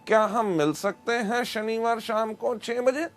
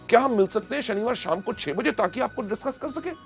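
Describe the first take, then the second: First: It is said flatly, without excitement. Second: It is said with lively excitement.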